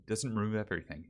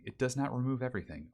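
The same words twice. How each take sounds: First: Said in the usual way. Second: "not" pulled apart and stressed; firm correction leaning on "not". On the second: Shown as a demonstration. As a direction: spell it out, hit "not" hard.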